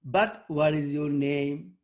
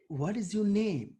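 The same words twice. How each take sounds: First: Slow, rising, awkward tune on "But what is your name?"; misplaced rising tune on "name", slow; odd intonation. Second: Falling finish on "name"; ordinary question, pitch drops on "name"; natural question tune. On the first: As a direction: stretch it out and rise on "name" so it sounds wrong. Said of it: "That doesn't make sense". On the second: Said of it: "This is one of intonation". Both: Shown as a demonstration.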